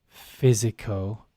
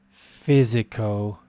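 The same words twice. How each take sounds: No difference in how they are said.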